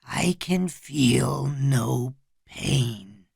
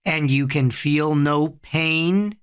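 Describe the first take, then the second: First: Whispery, very slow trance voice; slow, toneless-breath echo from under hypnosis; gravelly, hypnotized. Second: Slow, level question rising at the end; drawn-out hypnotic prompt; hypnotist. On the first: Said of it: "In his gravelly, slow-moving, hypnotized voice". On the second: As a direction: lead him on in a measured, steady voice. Hypnotist checks on his subject. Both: A narrator's reading.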